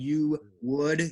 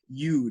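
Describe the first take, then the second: First: Both words are said fully and separately. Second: The two words are contracted into one syllable. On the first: "Instead of saying you would" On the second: "most Americans say you'd"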